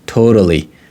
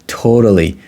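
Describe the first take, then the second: First: The middle consonant is a soft flapped D. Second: The same.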